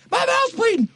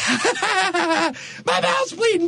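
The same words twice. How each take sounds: First: Much higher, ecstatic exclamation of My mouth's bleeding; joyful cry. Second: Much higher and slow, laughing through the words; laughing in wonder. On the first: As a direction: cry it out with sheer delight. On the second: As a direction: laugh it out in joyful disbelief. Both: Acted. George overjoyed he is alive.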